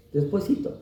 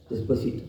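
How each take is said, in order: First: Coaxing "Despuésito" with a lifted, rising end; a playful plea to wait; pleading mock delay. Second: "despuésito" repeated much softer, fading away; a hushed afterthought of delay; trailing off mock plea. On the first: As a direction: stretch "Despuésito" upward like begging for more time. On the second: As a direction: let "despuésito" die off quietly. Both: Mocking reluctant believers.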